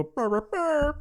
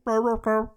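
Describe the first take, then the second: First: High-pitched Chewbacca-style roar; mock Wookiee growl that climbs much higher; imitated Wookiee roar. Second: Loud, raised Chewbacca-style growl; imitated Wookiee growl. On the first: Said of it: "He wanted to go". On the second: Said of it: "he didn't wanna go".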